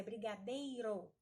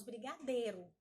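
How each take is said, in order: First: "brigadeiro" with the i clearly sounded in "dei"; careful "brigadeiro", full ei glide; full diphthong. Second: "brigadeiro" said as "brigadêro", without the i; casual "brigadeiro", ei reduced to a plain ê; everyday reduced pronunciation. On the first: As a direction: pronounce both vowels of "ei" in "brigadeiro". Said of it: "mas é brigadeiro". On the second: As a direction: swallow the i in "brigadeiro". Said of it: "Nós falamos brigadeiro". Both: Shown as a demonstration.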